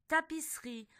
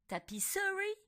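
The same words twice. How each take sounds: First: The middle vowel is dropped, giving three syllables. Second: Every syllable, including the middle vowel, is pronounced. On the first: The speaker calls it right. "on dit tapisserie" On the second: The speaker calls it wrong. "on ne dit pas tapisserie"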